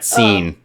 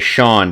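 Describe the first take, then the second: First: The name is said like 'seen'. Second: The name is said like 'shawn'. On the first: The speaker calls it wrong. "not Scene" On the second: The speaker calls it right. "that name is Sean"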